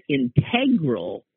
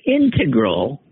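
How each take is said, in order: First: "integral" as the adjective, in-TEG-rul; second-syllable stress. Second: "integral" slowly as the noun, IN-tuh-grul; first-syllable stress. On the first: Relaying commenters' rule for the adjective, "integral" stressed on TEG. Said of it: "used as an adjectival form". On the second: Relaying commenters' rule for the noun, "integral" stressed on IN. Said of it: "is used as a noun". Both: Shown as a demonstration.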